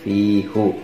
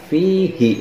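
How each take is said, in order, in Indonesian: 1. Vokal setelah h adalah u. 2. Vokal setelah h adalah i. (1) "bukan fihu" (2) "maka akan dibaca fihi"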